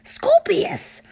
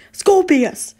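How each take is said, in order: First: High, loud shout of his name; yelling. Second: Very loud, raised-pitch bark; yelling. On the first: Father silences his babbling son, yelling. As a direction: yell the name in outrage. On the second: Father silences his babbling son, loud yell. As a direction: bellow the name to silence him. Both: A narrator's reading. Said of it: "Mister Draco yelled".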